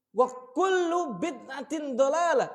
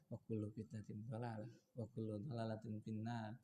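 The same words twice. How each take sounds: First: Loud, high, drawn-out Arabic recitation; preacher's raised voice, stretched out; raised warning tone. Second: Very quiet, low-pitched Arabic warning; hushed, deep, unemphatic delivery; low, soft recitation. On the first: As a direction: proclaim it as a stern warning, slowly and forcefully. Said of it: "pasti suaranya tinggi". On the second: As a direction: recite the warning with all the force taken out. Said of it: "Nggak ada seperti itu". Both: Shown as a demonstration.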